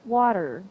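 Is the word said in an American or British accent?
American. American accent, with the T and R softened. "In the American accent, they drop the T and the R"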